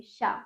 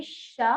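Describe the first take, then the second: First: शा said quickly, with a short sh; quick SHA. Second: शा with a long, pressed sh at the start; forceful SHA. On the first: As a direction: cut the sh of शा short and release fast. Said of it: "षटकोण को जल्दी बोलेंगे". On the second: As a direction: push hard on the sh of शा, holding it. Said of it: "थोड़ा जोर लगा के बोलेंगे". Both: Shown as a demonstration.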